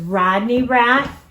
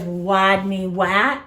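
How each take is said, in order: First: Both names begin with a clear R sound. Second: Both names begin with a W sound. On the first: The speaker calls it right. "instead of saying his name is Rodney Rat" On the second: The speaker calls it wrong. "he always says Wadney Wat, like a wah wah instead of a er er"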